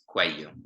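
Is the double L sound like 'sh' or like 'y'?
y. The double L sounds like a y. "a double L in Spanish is pronounced like a y noise"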